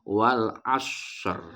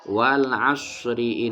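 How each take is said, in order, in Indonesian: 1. Berakhir pada 'asr' tanpa vokal akhir. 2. Vokal akhir diucapkan dan disambung ke kata berikutnya. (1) "Ketika dia ingin membaca wakof" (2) "Atau jika dia ingin wasol"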